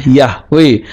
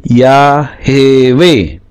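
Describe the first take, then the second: First: Yahweh as two syllables, yah-weh; Yahweh with no vowel after the h; rejected reading. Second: Yahweh very slowly as ya-he-weh; voiced sheva. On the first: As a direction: say Yahweh with h straight into w. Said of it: "tidak mungkin dibaca Yahweh". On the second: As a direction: stretch Yahweh into three syllables, ya-he-weh. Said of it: "tapi Yahweh". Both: Shown as a demonstration.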